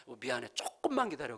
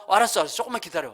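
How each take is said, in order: First: Soft, subdued plea for patience; apologetic. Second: Lightly imitated happy, eager wife; brisk, upbeat promise to hurry; glad eagerness. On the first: Retold or imitated. Wife soothing grumbling husband after rice ran out, apologetic. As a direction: imitate a sorry wife, quietly placating. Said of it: "너무 미안해하면서". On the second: Wife delighted her husband is hungry, glad and eager. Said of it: "와, 너무 좋다".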